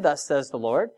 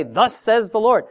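First: Said in the usual way. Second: Higher, ringing prophetic proclamation; prophet's formula. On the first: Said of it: "Jesus never said". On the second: Shown as a demonstration. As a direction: announce it like a prophet. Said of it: "the prophets would say".

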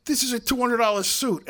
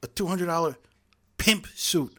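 First: Higher and louder, a huffy protest; indignant outburst. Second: Higher, stiff and clumsy comeback; awkward retort. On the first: Offended dinner guest protests his ruined suit, higher and louder. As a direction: play the offended guy snapping back. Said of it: "And the guy jumps up ... and says". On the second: Steinberg clumsily fires back at the suit guy, awkward and higher. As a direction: fumble the insult like a bad actor. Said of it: "And very awkwardly, he goes". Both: Retold or imitated.

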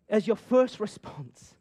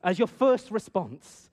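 First: Slow with weight on first; emphatic line. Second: Slow, stressed "first"; emphatic repeat. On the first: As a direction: lean on "first" slowly. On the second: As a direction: drive "first" home again slowly. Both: Shown as a demonstration. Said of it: "repeated sermon line".

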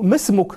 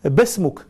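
First: Said in the usual way. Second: بسمك said "basmuk", b replacing m. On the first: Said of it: "يقول له". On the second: Retold or imitated. Caliph humouring the scholar in his dialect, b for m in بسمك. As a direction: open بسمك on a b instead of an m. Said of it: "بلغته".

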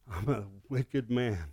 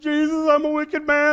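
First: Soft, slow "wicked man"; hushed confession. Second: High and loud "wicked man"; loud retelling. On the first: Pastor praying alone, softly afraid. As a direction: breathe it out in fear. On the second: Pastor recounting to his brother-in-law, high and loud. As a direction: tell it with excitement. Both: Retold or imitated.

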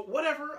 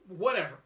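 First: High, dismissive "Whatever.". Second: Said in the usual way. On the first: Retold or imitated. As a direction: toss off "Whatever." like giving up. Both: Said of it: "I go".

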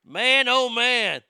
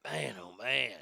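First: Loud, slow, drawn-out disbelief; exasperated groan. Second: Soft, low, resigned; quiet sigh. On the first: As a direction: shake your head at it out loud. Exasperated at FBI mistake. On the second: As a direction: mutter it to yourself, worn out. Quiet sigh after joke. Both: Real, not acted.

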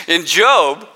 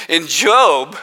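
No difference in how they are said.

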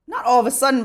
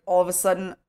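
First: Not punched higher, correcting herself; stress on not. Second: Said in the usual way. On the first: Real, not acted. Correcting her own words to the interviewer, stressing not. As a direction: hit the word not hard to take it back.

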